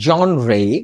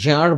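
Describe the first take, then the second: First: The word is said as two distinct syllables. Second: The word is said as one short syllable. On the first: The speaker calls it right. "British উচ্চারণ হচ্ছে জন রে" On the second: The speaker calls it wrong. "অনেকে জার বলে, actually এটা ঠিক নয়"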